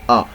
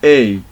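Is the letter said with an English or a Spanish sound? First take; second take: Spanish; English. First: The letter is said with a Spanish sound. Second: The letter is said with an English sound. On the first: "but in Spanish we say a, like this" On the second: "in English we say a"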